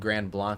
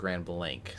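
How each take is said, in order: First: Blanc is not said like the English 'blank'. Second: Blanc is said like the English 'blank'. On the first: The speaker calls it wrong. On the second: The speaker calls it right.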